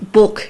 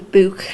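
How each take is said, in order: First: "book" with the short vowel of "look"; Lancashire "book". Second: "book" with a long oo, like "boo-k"; Liverpool "book". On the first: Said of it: "is the Lancashire one". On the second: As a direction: stretch "book" into an oo sound. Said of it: "with, like, more like an oo sound". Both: Shown as a demonstration.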